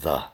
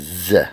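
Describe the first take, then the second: First: The word begins with a th sound. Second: The word begins with a z sound. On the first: This is the standard pronunciation. The speaker calls it right. "instead of the" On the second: This imitates the singer's pronunciation. The speaker calls it wrong. "he says z"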